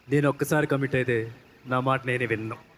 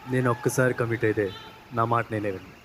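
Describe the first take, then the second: First: It is said loudly and forcefully. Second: It is said softly and slowly.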